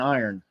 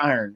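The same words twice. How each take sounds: First: The word is said in a standard accent. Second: The word is said in a Baltimore accent. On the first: "I do pronounce it correctly" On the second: "that's a very Baltimore way of pronouncing the word iron"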